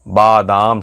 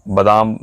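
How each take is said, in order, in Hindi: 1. पहला स्वर लंबा 'aa' है। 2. पहला स्वर छोटा 'a' है। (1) "बादाम शुद्ध होता है" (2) "कहते हैं"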